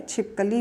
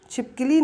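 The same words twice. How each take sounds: First: छिपकली said as "chhipkali", with a short a in the middle; correct pronunciation. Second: छिपकली said as "chhipkili", with an i in the middle; wrong pronunciation. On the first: Teacher giving students the correct form, छिपकली said as chhip-ka-li. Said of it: "छिपकली होगा". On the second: Teacher showing students the wrong form, छिपकली said as chhip-ki-li. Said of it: "छिपकली नहीं है". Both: Shown as a demonstration.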